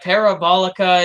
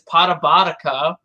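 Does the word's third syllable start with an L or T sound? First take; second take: L; T. First: The third syllable starts with an l sound. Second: The third syllable starts with a t sound.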